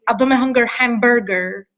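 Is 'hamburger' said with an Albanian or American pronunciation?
American. Hamburger is said with American English sounds. The speaker calls it wrong. "You wouldn't say"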